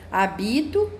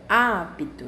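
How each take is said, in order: First: The stress falls on a later syllable. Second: The stress is on the first syllable. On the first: "já vai mudar a palavra" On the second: "Na primeira sílaba"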